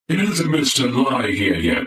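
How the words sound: It is said in a robotic voice.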